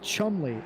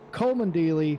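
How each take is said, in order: First: The name has two syllables with no d sound. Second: The name has four syllables with a d sound. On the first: The speaker calls it right. "completely forget that there's a D in there" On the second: The speaker calls it wrong. "I pronounced his name wrong"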